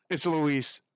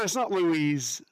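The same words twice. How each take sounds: First: "Louise" said shorter, as the fix; corrected name pronunciation. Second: "Louise" drawn out slowly, ending in z; rejected LOUISE pronunciation. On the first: Streamer correcting her reading of a name, corrected "Louise". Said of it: "No, it's not Louise". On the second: Streamer correcting her reading of a name, stretched "Louise". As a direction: say "Louise" slowly as loo-EEZ. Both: Shown as a demonstration.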